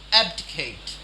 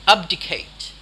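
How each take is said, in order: First: "Abdicate" with a short-a "ab" at the start; standard pronunciation. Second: "Abdicate" with an open "ahb" at the start; thick-accent pronunciation. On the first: Teacher contrasting two versions, "Abdicate" as AB-dih-kate. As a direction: say "Abdicate" with the a of "cat". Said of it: "There's a slight difference". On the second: Teacher contrasting two versions, "Abdicate" as AHB-dih-kate. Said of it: "which might say abdicate". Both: Shown as a demonstration.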